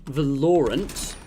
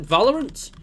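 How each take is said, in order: First: "Valorant" as vuh-LOR-unt, drawn out slowly; second-syllable stress. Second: "Valorant" as VAL-er-unt, questioning rise; first-syllable stress. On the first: Trying out pronunciations of "Valorant", slow vuh-LOR-unt. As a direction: slowly stress the middle of "Valorant", like "Lauren", as a question. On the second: Asking viewers how "Valorant" is pronounced, VAL-er-unt, rising. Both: Shown as a demonstration. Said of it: "How is that pronounced?".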